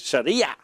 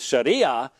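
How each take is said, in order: First: The word ends with a throaty consonant sound. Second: The word ends in a plain vowel sound. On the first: The speaker calls it right. "proper pronunciation is Sharia" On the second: The speaker calls it wrong. "It almost always comes across as Sharia"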